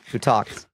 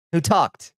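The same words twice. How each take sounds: First: Said in the usual way. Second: Higher-pitched mock demand; mock interrogation. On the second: Streamer playfully demanding to know who told, mock interrogation.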